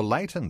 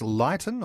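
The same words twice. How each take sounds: First: "Leighton" said as LAY-tun; "Leighton" with an ay vowel up front; first syllable like "lay". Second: "Leighton" said as LIGHT-un; "Leighton" with an eye vowel up front; first syllable like "light". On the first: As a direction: say "Leighton" to rhyme with Dayton. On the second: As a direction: say "Leighton" to rhyme with Brighton. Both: Shown as a demonstration. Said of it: "I think it's Leighton or Leighton".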